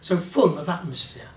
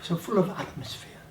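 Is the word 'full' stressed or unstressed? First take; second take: stressed; unstressed. First: The word 'full' carries strong stress. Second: The word 'full' carries no special stress. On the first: "You could do" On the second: "You're not going to stress the word full"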